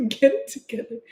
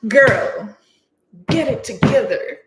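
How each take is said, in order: First: Higher, laughing repeat of a mock reprimand; lighter, tickled pep-talk; amused self-scolding. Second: Loud, playful pep-talk to yourself; sassy mock reprimand; mock self-scolding. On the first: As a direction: tell yourself off through a giggle. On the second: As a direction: tell yourself off, hammed-up and punchy. Retold scolding of herself.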